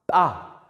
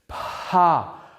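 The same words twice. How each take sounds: First: The p is released without any breath. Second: The p is released with a puff of breath. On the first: "you're not breathing out... it's ejected as opposed to aspirated" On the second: "So there's aspiration"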